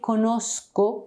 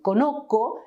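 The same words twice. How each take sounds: First: The word has a z-like sound before k. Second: The word has only a k sound mid-word. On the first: The speaker calls it right. "We say conozco" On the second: The speaker calls it wrong. "without the Z"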